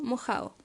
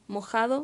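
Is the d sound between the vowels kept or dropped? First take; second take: dropped; kept. First: The d between the vowels is dropped. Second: The d between the vowels is pronounced.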